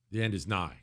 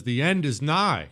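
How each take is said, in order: First: Low, hushed prophet of doom; ominous doom voice. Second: Said in the usual way. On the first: Shown as a demonstration. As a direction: intone it like a dire prophecy. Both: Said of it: "Why do you have to say it like that?".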